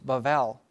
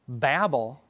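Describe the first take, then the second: First: The middle consonant is pronounced as V. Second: The middle consonant is pronounced as B.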